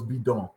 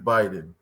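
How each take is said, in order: First: The surname is said with its native pronunciation. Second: The surname is said with an Americanized pronunciation. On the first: This is how the family says the name. The speaker calls it right. "I said no, it's Bidon" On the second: This is how Americans say the name. The speaker calls it wrong. "That's how the American vernacular of my name is"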